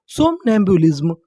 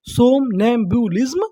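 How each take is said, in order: First: Said in the usual way. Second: सोमनैम्बुलिज्म slowed into parts, rising at the end; syllable by syllable. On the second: Shown as a demonstration. Teacher prompting learners for the English word, slow and rising. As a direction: break सोमनैम्बुलिज्म slowly into its syllables. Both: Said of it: "English में क्या बोलेंगे".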